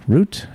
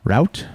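First: "Route" said like "root", as a higher rising question; "Route" with a long OO vowel; sounding like "root". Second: "Route" said like "rout", as a rising question; "Route" with an OW vowel; rhyming with "out". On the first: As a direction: say "Route" to rhyme with "boot", pitched up. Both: Shown as a demonstration. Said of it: "Is it route or route?".

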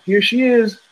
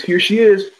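First: Put-on higher bright announcement of the baby; nurse announcing. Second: High, louder nurse announcement; nurse announcing. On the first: Nurse presenting the newborn to the parents, proud and high. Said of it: "you're supposed to hear". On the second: Retold or imitated. Nurse presenting the newborn again, higher and louder. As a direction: call it out like the nurse. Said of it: "she goes".

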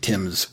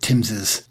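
First: Tim's as one syllable, with no extra "iz"; one-syllable possessive. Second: Timbs's with an extra "iz" syllable at the end; two-syllable possessive. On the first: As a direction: say Tim's simply as "timz". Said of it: "I would just make it". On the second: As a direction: say Timbs's as "TIMZ-iz". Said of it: "that's how they did it". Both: Shown as a demonstration.

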